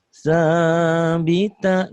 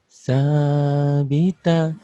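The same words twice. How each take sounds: First: The voice is pushed out at full power. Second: The voice is held back, not fully spent.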